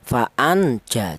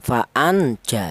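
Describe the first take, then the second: First: The n sound is pronounced clearly. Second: The n sound is pronounced clearly.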